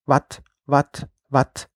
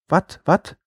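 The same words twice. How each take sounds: First: "Wat" croaked like a frog. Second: "Wat, wat?" in Trier dialect, higher question. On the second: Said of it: "fragte auf sein Trierisch". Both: A narrator's reading.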